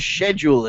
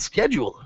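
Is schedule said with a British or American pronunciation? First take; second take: British; American. First: The word is said with a British pronunciation. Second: The word is said with an American pronunciation.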